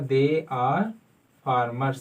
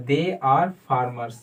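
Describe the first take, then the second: First: Said in the usual way. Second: Very slow, deliberate example; model sentence. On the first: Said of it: "क्या होगा?". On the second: Shown as a demonstration. Teacher modelling the answer slowly. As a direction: say it slowly for students to repeat. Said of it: "तो क्या होगा?".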